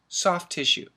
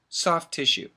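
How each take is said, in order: First: The two words are run together quickly. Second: The two words are run together quickly.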